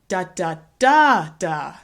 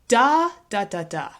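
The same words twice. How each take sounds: First: The stress is on the third syllable. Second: The stress is on the first syllable.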